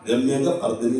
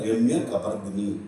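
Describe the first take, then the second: First: The break comes after the syllable 'ka'. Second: The break comes before the syllable 'ka'. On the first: The speaker calls it wrong. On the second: The speaker calls it right.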